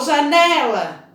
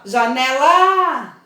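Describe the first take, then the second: First: The stress falls on the middle syllable. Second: The stress falls on a syllable other than the middle. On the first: The speaker calls it right. "Eu falo, ô janela. Então vocês vão observar que é o né que é forte" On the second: The speaker calls it wrong. "Eu nunca vou falar assim, ó, janela. Não, né?"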